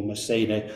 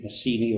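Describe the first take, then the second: First: Messene as "meh-SAY-nay"; classical pronunciation. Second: Messene as "meh-SEE-nee"; anglicised pronunciation. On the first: Lecturer giving the city's other name, classical pronunciation. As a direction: say Messene with two "ay" sounds. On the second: Lecturer giving the city's name, anglicised pronunciation. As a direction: say Messene with two "ee" sounds. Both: Shown as a demonstration. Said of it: "My pronunciation will vary".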